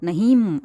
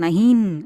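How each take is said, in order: First: The word ends with a full m consonant. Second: The word ends with a full n consonant. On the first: "அப்படியெல்லாம் சொல்லக்கூடாது" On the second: "அப்படியெல்லாம் சொல்லக்கூடாது"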